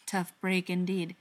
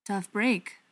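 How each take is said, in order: First: Slow, measured echo; drawn-out, deliberate agreement; said slowly. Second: Said in the usual way. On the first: A narrator's reading. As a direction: repeat it back slowly. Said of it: "the butcher said slowly".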